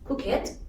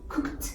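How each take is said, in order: First: The ending is said as an extra syllable. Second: The ending is said as a short t sound. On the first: The speaker calls it wrong. "we shouldn't uh, say like" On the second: The speaker calls it right. "We should say"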